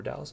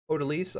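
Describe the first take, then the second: First: "Odalis" said as oh-DAL-iss; alternative pronunciation attempt. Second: "Odalise" said as oh-duh-LEESE; first pronunciation attempt. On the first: Lecturer unsure of a student's name, "Odalis" rhyming with Dallas. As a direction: stress the middle of "Odalis", like "Dallas". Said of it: "I'm not sure". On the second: Lecturer trying a student's name, "Odalise" ending in LEESE. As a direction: end "Odalise" on a long "ee", like "lease". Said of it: "hopefully I'm saying that correct". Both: Shown as a demonstration.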